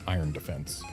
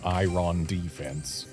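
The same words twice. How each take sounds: First: Iron is said with its ordinary standard pronunciation. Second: Iron is said with a playful, unusual cadence. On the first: "Instead of iron defense" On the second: "it's got a fun cadence to go Iron defense"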